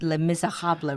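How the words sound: It is said with French sounds, including the French R. "The French pronounce it Les Miserables, right? Like with the R sound"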